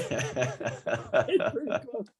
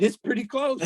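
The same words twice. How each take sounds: First: Slow, laughing through the words; slow amused repeat laughing at own joke. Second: Said in the usual way. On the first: Real, not acted. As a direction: chuckle the line out again slowly. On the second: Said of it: "I said".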